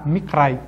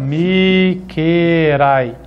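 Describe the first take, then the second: First: The k and r are joined without a vowel. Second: A short vowel separates the k and r. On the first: The speaker calls it right. "ele ficou mudo para juntar o R com o K" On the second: The speaker calls it wrong. "poderia ser assim, ó, Mikerai, né? Mas não é"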